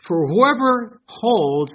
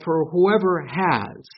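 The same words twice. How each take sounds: First: "whoever holds" said very slowly, each word weighed; stress on whoever holds. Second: "whoever has" drawn out slowly, questioning; slow reading of whoever has. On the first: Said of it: "this is what you need to write in there". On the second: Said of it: "How many here have". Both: Shown as a demonstration.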